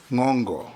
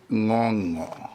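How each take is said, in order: First: Ngongo with a hard g, as "ngong-go"; hard g pronunciation. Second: Ngongo with no hard g, as "ngong-o"; soft ng pronunciation. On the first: Speaker retries nominee's name for the record, hard g. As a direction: say Ngongo with the middle ng as in "finger". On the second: Speaker reads nominee's name for the record, soft ng. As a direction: say Ngongo with the middle ng as in "singer". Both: Shown as a demonstration. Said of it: "Is it Ngongo or Ngongo?".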